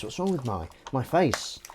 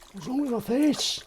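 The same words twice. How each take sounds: First: Said in the usual way. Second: Squeaky, much higher pitched take of the question; rising squeaky mock whine on face; silly high voice. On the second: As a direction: pitch it way up like a cartoon character. Silly repeat of itchy-face complaint.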